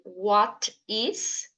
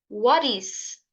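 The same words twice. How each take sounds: First: The T is pronounced as a clear T sound. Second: The T is pronounced like a soft R sound. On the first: The speaker calls it wrong. "em vez de você dizer what is" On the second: The speaker calls it right. "esse T vai ficar com som de R... diga what is. Vai ficar bem mais natural"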